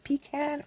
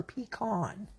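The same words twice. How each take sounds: First: First "Pecan" with the vowel of "cat"; pee-CAN pronunciation. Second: "pecan" with the vowel of "father"; pee-KAHN pronunciation. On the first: Asking viewers how they say it, "Pecan" with a short A. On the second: Asking viewers how they say it, "pecan" with a broad AH. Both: Shown as a demonstration. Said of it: "How do you say it?".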